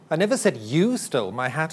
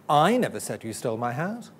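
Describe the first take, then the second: First: The stress is on "you". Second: The stress is on "I".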